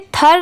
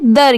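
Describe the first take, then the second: First: It starts with the 'th' sound of 'thin'. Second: It starts with the 'th' sound of 'this'. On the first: The speaker calls it wrong. "इसे थर नहीं पढ़ेंगे" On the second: The speaker calls it right. "इसकी sound क्या आ रही है दर की"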